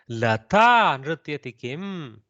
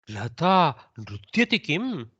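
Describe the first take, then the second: First: The stress falls on the word Lata. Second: The stress falls on the word nrutyati. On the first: The question is whether it is Lata who dances. "puts the stress on Lata" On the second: The question is whether Lata is dancing. "the kaku goes on nrutyati"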